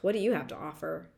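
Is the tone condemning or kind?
condemning. The question sounds harsh and condemning. It is an accusation that one has nothing to offer. The speaker calls it wrong.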